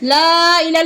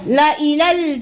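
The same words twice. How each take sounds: First: The first vowel is drawn out long. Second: The first vowel is kept short. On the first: The speaker calls it wrong. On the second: The speaker calls it right.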